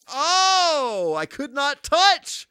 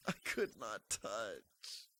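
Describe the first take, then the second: First: High, slow, louder protest; high exclaim. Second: Much softer, slow trailing repeat; faint mutter. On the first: Repeats the line, fading. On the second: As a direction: let it die away to nothing. Third take, near silent. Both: Real, not acted.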